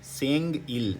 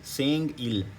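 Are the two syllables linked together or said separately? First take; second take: separate; separate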